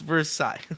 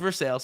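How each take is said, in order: First: It is said with the French-style pronunciation. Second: It is said with the local Pittsburgh pronunciation. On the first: This follows the French place it is named after. The speaker calls it right. "that is the correct pronunciation of that word" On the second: This is how the town's residents say it. The speaker calls it wrong. "they say no, it's Versailles"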